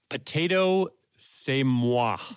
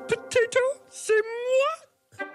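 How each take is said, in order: First: It is said in the speaker's normal voice. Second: It is said in a put-on Miss Piggy voice.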